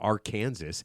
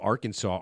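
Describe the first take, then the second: First: The final s is pronounced. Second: The final s is silent. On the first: The speaker calls it wrong. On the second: The speaker calls it right.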